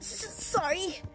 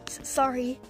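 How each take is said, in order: First: It is said in an imitated Deku voice. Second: It is said in the reader's normal voice.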